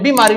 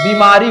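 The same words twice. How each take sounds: First: The first vowel is short and quick. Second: The first vowel is long and drawn out. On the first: The speaker calls it wrong. "ब पर आपका छोटी का मात्रा नहीं, बीमारी नहीं होता" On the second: The speaker calls it right. "बीमारी होता है"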